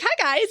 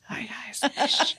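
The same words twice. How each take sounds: First: It is a voice unlike a librarian's. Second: It is a voice like a librarian's.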